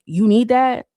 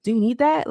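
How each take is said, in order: First: "You need that?" said flat and clipped, like a plain fact; a clipped "You need that?" with no lift; flat statement tune. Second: "Do you need that?" asked with a lift on "that"; a rising, asking "Do you need that?"; rising question. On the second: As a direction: pitch up and rise at the end of "Do you need that?". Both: Shown as a demonstration. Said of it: "it changes on, based on ... the inflection, the tone, the pitch".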